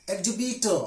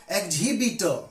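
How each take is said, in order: First: EXHIBITOR as "eg-jubitor", with no H; silent H. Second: EXHIBITOR as "eg-jhibitor", H pronounced; wrongly sounded H. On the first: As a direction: drop the H in EXHIBITOR. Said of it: "H is always silent when it is after X". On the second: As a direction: breathe an H into EXHIBITOR. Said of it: "not exhibitor". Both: Shown as a demonstration.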